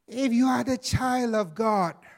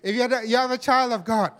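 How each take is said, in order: First: It is said in a put-on sinister voice. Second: It is said in a natural speaking voice. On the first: "I'm using my sinister voice again" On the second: "okay, maybe forget it"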